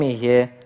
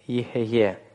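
First: The word is said with two short syllables. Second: The word is said with three syllables. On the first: This is the usual modern reading. "в современном иврите обычно это произносится как Ие" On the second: This is the classical reading with a voiced shva. "более классическими правилами Элияху Левиты"

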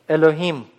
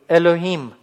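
Both takes have the same delivery.

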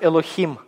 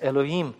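First: The h is a harsh throaty kh sound. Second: The h is dropped and the vowels join. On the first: "я не говорю «элохим»" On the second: "просто говорить «элоим», то есть как бы «о» и «и» соединять"

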